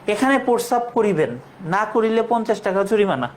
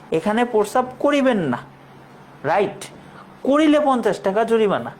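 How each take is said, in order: First: The pause comes before 'না'. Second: The pause comes after 'না'.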